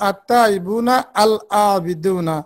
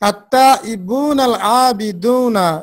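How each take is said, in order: First: The alif of al is pronounced separately. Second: The alif of al is silent and linked. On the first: The speaker calls it wrong. "এখানে কিন্তু আমরা বলছি না" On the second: The speaker calls it right. "এই আলিফটা এখানে উচ্চারিত হচ্ছে না"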